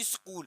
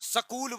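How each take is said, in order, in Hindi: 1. इसे मानक उच्चारण में बोला गया है। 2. इसे स्थानीय क्षेत्रीय उच्चारण में बोला गया है। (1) "उसका सही जो उच्चारण होता है वो स्कूल ही होता है" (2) "हमारे यहाँ स्कूल बोला जाता है"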